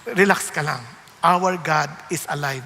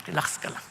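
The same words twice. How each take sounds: First: Voiced, firm and louder; firm spoken relax ka lang; firmer reassurance. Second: Whispered, low and hushed; soft whispered relax ka lang; whispered reassurance. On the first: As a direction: say it with confident assurance. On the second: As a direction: breathe it like a secret comfort. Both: Shown as a demonstration.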